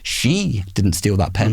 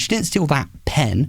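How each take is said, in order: First: The stress falls on the word she. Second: The stress falls on the word pen. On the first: Someone else stole it. "someone else did" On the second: She stole something else. "she stole something else"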